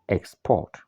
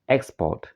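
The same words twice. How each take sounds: First: It has the stress pattern of the verb. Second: It has the stress pattern of the noun. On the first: The word is a verb. "the verb is export" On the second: The word is a noun. "the noun is export"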